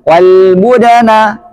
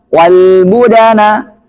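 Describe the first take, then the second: Both takes have the same delivery.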